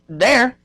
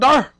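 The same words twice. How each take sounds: First: It is said in a plain, general accent. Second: It is said in a St. Louis accent. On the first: "I can say there" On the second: "brother from Saint Louis said there"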